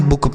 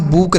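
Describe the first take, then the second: First: बुक with a short u as in put; बुक said correctly with a short u; correct pronunciation. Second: बुक with a long oo as in boot; बुक mispronounced with a long oo; wrong pronunciation. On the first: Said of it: "इसे हम बुक पढ़ते हैं". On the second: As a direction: say बुक stretching the vowel to a long oo. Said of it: "बिल्कुल गलत उच्चारण होगा". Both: Shown as a demonstration.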